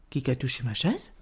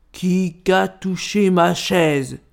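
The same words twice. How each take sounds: First: Low, soft middle-bear voice; middle bear's question. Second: Slow, heavy big-bear voice; big bear's outcry. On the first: Médio Ours echoes the big bear, subdued question. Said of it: "s'escria à son tour Médio Ours". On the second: Grand Ours finds his chair touched, slow indignant outcry. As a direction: stretch each word indignantly as the big bear. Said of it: "s'escria Grand Ours". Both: A narrator's reading.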